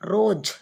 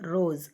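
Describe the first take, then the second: First: The word ends with a j sound. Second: The word ends with a z sound. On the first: The speaker calls it wrong. "ரோஜ் அப்படின்னு சொல்லக்கூடாது" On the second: The speaker calls it right. "ரோஸ் அப்படின்னு படிக்கணும். அதனால இசட் வரும்"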